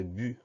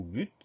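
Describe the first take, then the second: First: "but" with the T left silent, ending on the vowel; silent final T. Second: "but" with a clearly released final T; sounded final T. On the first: Teacher showing pupils both ways to say the word, silent final T in "but". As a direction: say "but" like "bu", no T heard. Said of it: "on considère le T comme une lettre muette". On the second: Teacher showing pupils both ways to say the word, sounded final T in "but". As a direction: close "but" on an audible T. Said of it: "on peut le prononcer but ou but". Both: Shown as a demonstration.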